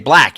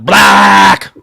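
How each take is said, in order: First: It is said flatly, without exclaiming. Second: It is loudly exclaimed.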